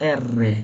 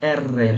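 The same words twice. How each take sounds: The two takes are said the same way.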